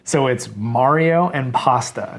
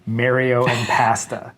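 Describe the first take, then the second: First: "Mario" said "MAH-rio", "pasta" said "PAH-sta" with an open ah; broad ah vowels. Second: "Mario" said "MAIR-io", "pasta" said "PA-sta" with a flat a as in cat; flat a vowels. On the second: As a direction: say "Mario" like "marry" and "pasta" like "pass". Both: Shown as a demonstration.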